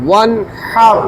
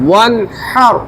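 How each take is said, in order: Both takes have the same delivery.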